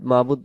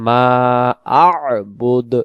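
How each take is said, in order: First: The throat sound is dropped, running 'mabud' together. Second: The throat sound is kept between 'ma' and 'bud'. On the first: The speaker calls it wrong. "এখানে আইন অক্ষরটা বাদ চলে যাবে" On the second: The speaker calls it right. "এখানে উচ্চারণ হবে মা আ'বুদ"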